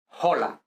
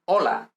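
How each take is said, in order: First: The word begins with an audible h sound. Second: The word begins with a vowel, no h sound. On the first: The speaker calls it wrong. "not hola" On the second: The speaker calls it right. "I say hola"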